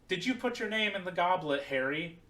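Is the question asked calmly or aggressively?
calmly. The question is asked in a calm, quiet way.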